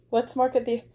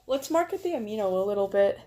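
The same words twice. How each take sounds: First: Said in the usual way. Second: A hint of a British accent, quick; light British accent. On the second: Pitching her Amino community, a touch of British accent. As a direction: toss it off in a half-British voice. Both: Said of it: "why did Vi sound British?".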